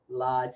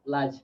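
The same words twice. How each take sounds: First: The vowel is held long. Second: The vowel is said short. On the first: The speaker calls it right. "like it's like about two" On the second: The speaker calls it wrong. "you don't really say large"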